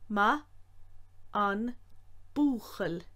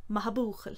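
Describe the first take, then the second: First: Ma an búchail slow with the N sounded; each syllable apart; said slowly. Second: Maha búchail run together without the N; N dropped. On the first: Teacher showing the full slow form. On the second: Teacher giving the usual spoken form. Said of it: "usually it's said with the N dropped". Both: Shown as a demonstration.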